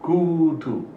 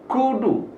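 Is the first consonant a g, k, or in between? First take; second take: in between; k. First: The first consonant is between g and k. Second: The first consonant is a full k sound. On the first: The speaker calls it right. "setengah G, setengah K" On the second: The speaker calls it wrong. "dan bukan kudu"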